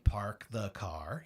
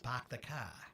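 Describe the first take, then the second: First: It is said in a neutral American accent. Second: It is said in a strong Boston accent. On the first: "he doesn't say park the car" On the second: "He says park the car"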